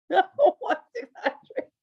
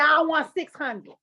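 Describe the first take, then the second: First: Slower, higher laughing repeat; drawn-out giggling demand. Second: Slow, laughing ask for money; slow giggling price demand. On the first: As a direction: push it again through laughter. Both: Retold or imitated. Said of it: "I said".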